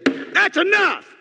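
It is said in an angry, forceful tone.

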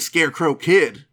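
The name is said in a dramatic, announcing way. It sounds like a feared outlaw's name. "go back a couple hundred years, the Scarecrow Kid"

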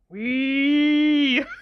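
It sounds dark and menacing, deliberately sinister.

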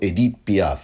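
The name is said with a French pronunciation.

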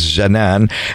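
The name is said the non-Egyptian way. "if you're not, you're going to pronounce it as Janan"

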